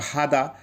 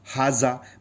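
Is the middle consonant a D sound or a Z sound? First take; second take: D; Z. First: The middle consonant is a D sound. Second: The middle consonant is a Z sound. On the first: This is the form mostly used in the Gulf countries. "Kuwait है, सऊदी है, और भी गल्फ countries में हादा ज़्यादा चलता है" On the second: This is the form used in many other countries. "बहुत सी कंट्री में इसे जेड भी लगाते हैं"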